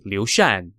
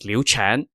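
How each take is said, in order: First: The second name starts with an sh sound. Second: The second name starts with a ch sound. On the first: The speaker calls it right. "it should be Liu Shan" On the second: The speaker calls it wrong. "I have been pronouncing Liu Shan's name incorrectly, as Liu Chan"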